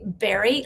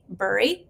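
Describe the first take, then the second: First: The word sounds exactly like 'berry'. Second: The word does not sound like 'berry'. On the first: The speaker calls it right. "but it's actually berry, like the fruit" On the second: The speaker calls it wrong. "one wants to say"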